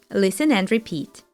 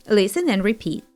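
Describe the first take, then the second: No difference in how they are said.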